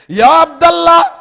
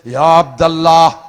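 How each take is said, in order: First: It is said in a louder voice. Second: It is said in a deep, softer voice.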